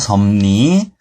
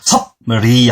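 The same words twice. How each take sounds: First: The consonants are assimilated into m and n: seomni. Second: The consonants are kept as in spelling: seopri. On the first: The speaker calls it right. "비읍과 리을이 만나서 미음과 니은" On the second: The speaker calls it wrong. "섭리 아니고요"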